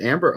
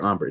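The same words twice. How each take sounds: First: Said in the usual way. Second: "Amber" with an open AH, as AHM-ber; broad-A pronunciation. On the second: Shown as a demonstration. Host unsure of the cologne's name, "Amber" tried as AHM-ber. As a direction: say "Amber" with a first vowel like "father".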